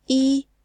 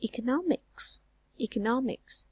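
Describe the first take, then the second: First: "economics" split into e, co, no-mics with long gaps; syllable by syllable. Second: "economics" as one word, NOM stressed; third-syllable stress. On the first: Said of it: "how many syllables are there". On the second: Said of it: "fall on the third syllable". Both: Shown as a demonstration.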